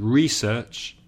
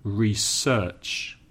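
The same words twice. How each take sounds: First: "research" as a noun, first syllable stressed, RE-search. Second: "research" as a verb, second syllable stressed, re-SEARCH; slow "research" with the weight on SEARCH. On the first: Teacher contrasting noun with verb, "research" stressed on its first syllable. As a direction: say "research" with the weight on RE. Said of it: "The verb, of course". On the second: Teacher contrasting verb with noun, "research" stressed on its second syllable. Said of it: "The verb, of course, is". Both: Shown as a demonstration.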